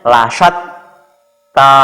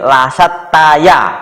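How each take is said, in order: First: The phrase ends on ta with no ya. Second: The phrase ends with an extra ya syllable. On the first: The speaker calls it right. "Jadi bacanya lasat ta" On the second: The speaker calls it wrong. "Bukan begitu bacanya"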